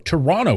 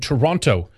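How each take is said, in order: First: It is said with a Canadian pronunciation. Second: It is said without a Canadian pronunciation.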